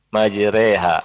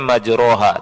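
First: The vowel after r sounds like e. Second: The vowel after r sounds like a. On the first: The speaker calls it right. "tapi dibaca apa? Majreha" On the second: The speaker calls it wrong. "Di sini tulisannya majroha"

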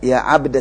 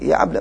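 First: The d is released with an echoing bounce. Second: The d is pronounced plainly without a bounce. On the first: The speaker calls it wrong. "enggak berlaku" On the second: The speaker calls it right. "baca seperti biasa saja, tidak dikalqalahkan"

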